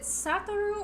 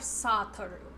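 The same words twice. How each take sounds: First: The first vowel sounds like the vowel in 'sat'. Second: The first vowel sounds like the vowel in 'sought'. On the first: "Like sat" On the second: "or sought?"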